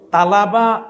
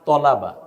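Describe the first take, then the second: First: The first vowel is an open a sound. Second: The first vowel is a dark o sound. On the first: The speaker calls it wrong. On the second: The speaker calls it right.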